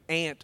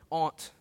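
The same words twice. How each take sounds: First: Aunt is said like ant, Arkansas style. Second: Aunt is said like ahnt, Virginian style.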